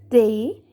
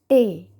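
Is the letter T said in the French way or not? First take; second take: French; non-French. First: The T is said with the French sound. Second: The T is said with a non-French sound. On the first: The speaker calls it right. "you will pronounce it they" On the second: The speaker calls it wrong. "not te"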